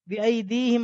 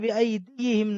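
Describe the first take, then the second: First: The ya is said plainly with no added vowel. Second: The ya is said with an added 'i' vowel. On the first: The speaker calls it right. "यहाँ पर भी बिअयदीहिम आ रहा है" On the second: The speaker calls it wrong. "बिअयदीहिम नहीं है"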